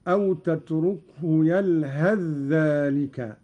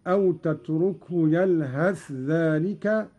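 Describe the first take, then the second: First: "يلهث ذلك" merged as "يلهذّلك", tha swallowed into doubled dha; idgham. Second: "يلهث ذلك" with the tha sounded clearly before dha; izhar. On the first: Teacher shows the idgham of "يلهث ذلك". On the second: Teacher shows the izhar of "يلهث ذلك". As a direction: keep the tha of "يلهث" distinct. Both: Shown as a demonstration. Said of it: "بالإظهار والإدغام هكذا".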